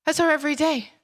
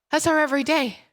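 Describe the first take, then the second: No difference in how they are said.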